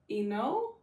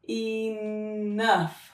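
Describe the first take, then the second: First: The 'ough' is said as a long o. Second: The 'ough' is said as uff. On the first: The speaker calls it wrong. "You want to try O?" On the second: The speaker calls it right. "You want to try uff?"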